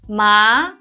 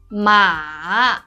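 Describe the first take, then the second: First: The pitch rises like a question. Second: The pitch falls first and then rises. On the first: It means numb. "it's a rising tone" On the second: It means horse. "It's a falling, rising tone"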